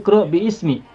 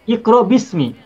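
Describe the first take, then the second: First: An extra i vowel is heard before smi. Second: No vowel is heard between bi and smi. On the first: The speaker calls it wrong. "Tidak boleh kita membacanya menjadi" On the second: The speaker calls it right. "Alifnya dibaca tidak? Tidak dibaca"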